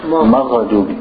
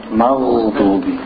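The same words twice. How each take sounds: First: "Maghdubi" with an extra "a" after gh; common mistake. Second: Slow "Maghdubi", gh held straight into d; held ghain. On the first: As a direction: say "Maghdubi" as ma-gha-dubi. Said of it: "Common mistake". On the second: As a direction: stretch gh in "Maghdubi" with no vowel after. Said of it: "You hold it". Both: Shown as a demonstration.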